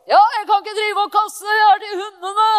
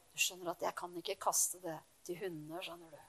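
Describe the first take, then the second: First: Loud, high, angry rebuke; harsh shout. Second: Much softer and lower, kindly; gentle explanation. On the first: Jesus harshly turning the woman away: angry shout. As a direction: bark it at her like a harsh refusal. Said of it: "Det er ikke litt sånn". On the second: Jesus gently explaining to the woman: soft, kind tone. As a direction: explain it softly, as if with a smile. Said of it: "Han kan ha sagt det sånn". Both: Pretend.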